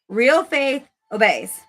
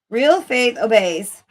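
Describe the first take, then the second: First: It is said in a dramatic way. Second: It is said in a plain, ordinary way.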